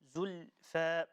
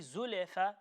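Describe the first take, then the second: First: The L closes directly into the F. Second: An extra bouncing vowel follows the L. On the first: The speaker calls it right. "it's Zul, Zulfa" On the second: The speaker calls it wrong. "to say Zulefa will be incorrect"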